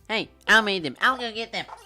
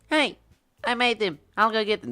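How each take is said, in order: First: A strained, nasal attempt at a feminine voice. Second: A casual put-on female voice, not nasal.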